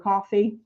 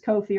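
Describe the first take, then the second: First: It sounds exactly like the drink coffee. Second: The first vowel is a long 'oh' sound. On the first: "We think it's coffee because it's buy me a cup of coffee" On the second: "the videos I found all say Ko-fi"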